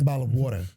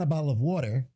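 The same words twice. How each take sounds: First: "water" as New York "waw-tuh"; New York accent. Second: Said in the usual way. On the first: Shown as a demonstration. New Yorker ordering at the bodega, New York accent. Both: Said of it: "it's not a bottle of water".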